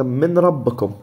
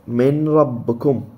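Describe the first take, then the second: First: Said in the usual way. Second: من ربكم drawn out slowly, the نون merged into the راء; slow recited من ربكم with idgham, no nasal hum; slow tajweed recitation. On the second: Shown as a demonstration. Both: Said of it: "هذا الإدغام".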